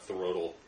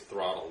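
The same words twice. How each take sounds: First: The wrong "throttle", stretched out as "thuh-rottle"; mispronounced "throttle". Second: Said in the usual way. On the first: Shown as a demonstration. Correcting another's word to a friend, "throttle" mispronounced as "thuh-rottle". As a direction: say "throttle" with an extra vowel after the "th". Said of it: "I think it's throttle, not". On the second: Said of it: "I think it's throttle".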